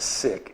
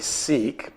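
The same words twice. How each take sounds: First: The vowel is short, like in sick. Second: The vowel is long, like in seek. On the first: The speaker calls it right. "the proper pronunciation is Sikh, short I" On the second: The speaker calls it wrong. "some people say"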